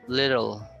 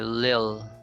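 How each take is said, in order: First: The word is said in full, two syllables. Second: The word is shortened to one syllable. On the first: "Then we have little" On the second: "could be shortcut"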